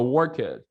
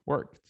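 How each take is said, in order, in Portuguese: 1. O final é falado como uma sílaba separada 'ed'. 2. O final é um 't' simples, sem sílaba extra. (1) "essa tendência de estender o ed" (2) "tu nem pronuncia o E. Então, e o D às vezes muda pra T"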